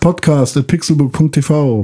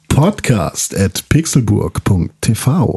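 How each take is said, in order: First: It is said in his normal voice. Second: It is said in a grand, showy jubilee voice.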